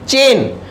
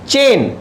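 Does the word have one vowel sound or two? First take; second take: one; one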